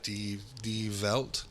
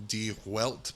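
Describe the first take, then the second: First: "Die Welt" with a V sound, "dee velt"; slow second try, saying "Welt" as "velt"; attempted German pronunciation. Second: "Die Welt" with an English W in Welt; anglicized pronunciation. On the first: Host correcting himself on German paper, slow "Die Welt" with V. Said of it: "not how it's pronounced". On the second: Host naming a German paper, "Die Welt" with English W. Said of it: "I'm sure I destroyed that". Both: Real, not acted.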